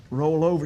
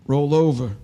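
First: Said in the usual way. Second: Low, louder, as if through a tiny mic; over a little microphone. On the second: Retold or imitated. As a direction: boom it out like a nurse on the intercom. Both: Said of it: "She's on a little microphone".

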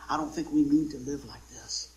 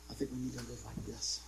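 First: Tight, pinched delivery; clenched and tight. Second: Softer, loosened delivery; relaxed and easy. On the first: Preacher showing the congregation a clenched heart, tight. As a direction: say it all clenched up. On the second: Preacher showing the congregation an open heart, relaxed. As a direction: let it out easy and free. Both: Shown as a demonstration. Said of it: "We got our heart clenched like this".

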